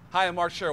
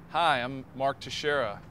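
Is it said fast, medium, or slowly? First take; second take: fast; medium. First: It is said quickly. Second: It is said at medium speed.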